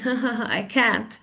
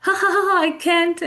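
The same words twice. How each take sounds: First: Quick, unamused fake "ha ha ha"; sarcastic. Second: High, giggly demonstrated laughter; laughing. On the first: Teacher shows students mock amusement, sarcastic. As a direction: fake the laugh without any pitch lift. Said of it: "you know I'm being sarcastic". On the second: Teacher shows real amusement, laughing. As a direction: laugh it out, pitched way up. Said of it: "I'm laughing and I'm goggling". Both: Shown as a demonstration.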